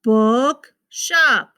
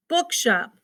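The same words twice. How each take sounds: First: BOOKSHOP as "book", clear pause, "shop"; split into syllables. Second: Said in the usual way. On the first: Shown as a demonstration. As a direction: pull "bookshop" apart into two words. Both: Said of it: "we can divide those".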